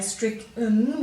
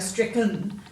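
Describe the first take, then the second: First: The last syllable has a clear, full vowel. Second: The last syllable has a reduced, grunt-like vowel. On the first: "we don't usually say stricken, we don't hear that sound" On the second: "we go stricken"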